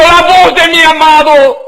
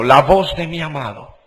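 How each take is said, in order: First: High, loud cry of delight; rapturous exclamation of the beloved's voice; joyful exclamation. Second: Said in the usual way. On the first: Acted. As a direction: burst out with joy. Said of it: "Con gozo diciendo". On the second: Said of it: "la dice en signos de exclamación".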